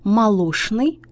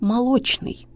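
First: The sound before n is pronounced sh. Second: The sound before n is pronounced ch. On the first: The speaker calls it wrong. "ошибка" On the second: The speaker calls it right. "правильно"

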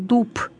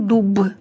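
First: The final consonant is voiceless, like p. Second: The final consonant is voiced, like b. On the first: The speaker calls it right. "на конце слова всегда будет оглушаться" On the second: The speaker calls it wrong. "Я ж не говорю"

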